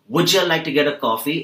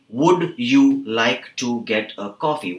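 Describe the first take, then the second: First: "Would you like to get a coffee" run together as one long word, "wouldja liketa gedda"; reduced, joined words. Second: "Would you like to get a coffee" slowly, each word separate; full, unreduced words. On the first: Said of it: "they join all the words". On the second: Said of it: "is actually". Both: Shown as a demonstration.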